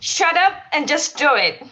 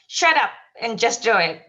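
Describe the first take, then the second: First: It is said with strong, emphatic feeling. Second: It is said plainly, without much feeling.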